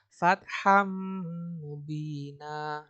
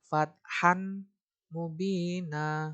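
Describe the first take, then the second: First: The n sound merges nasally into the next m. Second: The n sound is pronounced separately, not merged. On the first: The speaker calls it right. "harus dibaca fatham mubina" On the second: The speaker calls it wrong. "itu nggak boleh"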